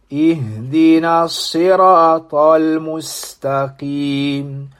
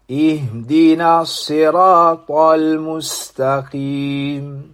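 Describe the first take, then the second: No difference in how they are said.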